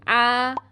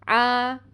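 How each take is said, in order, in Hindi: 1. स्वर खुला है, जैसे 'ah'। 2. स्वर खुला है, जैसे 'ah'।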